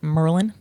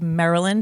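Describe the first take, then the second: First: The name is squeezed to sound like 'Merlin'. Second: The name is said in its standard full form.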